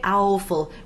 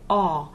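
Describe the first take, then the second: First: The vowel is the gliding 'ow' as in ouch. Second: The vowel is a single pure 'aw' sound. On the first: The speaker calls it wrong. "We don't say owful" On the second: The speaker calls it right. "we say aw"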